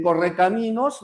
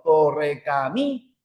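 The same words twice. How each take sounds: First: Said in the usual way. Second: "Correcaminos" broken up, MI held and stressed, pause before "nos". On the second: Shown as a demonstration. Teacher showing where the voice's force falls, stressed MI in "Correcaminos". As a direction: lean hard on the "mi" of "Correcaminos", then detach "nos". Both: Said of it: "la fuerza de voz estaría acá".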